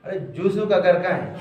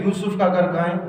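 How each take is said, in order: First: "یوسف" said as "Joosuf"; quick, lower mock question with "Joosuf" for "یوسف"; mispronouncing locals. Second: "یوسف" with initial y; plain y glide opening "یوسف"; correct pronunciation. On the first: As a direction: put a j on "یوسف", saying "Joo-su". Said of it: "لوگ کیا کہیں گے". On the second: Retold or imitated. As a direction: ask it lower, saying "Yoosuf" for "یوسف". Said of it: "اگر آپ کسی سے بولیں".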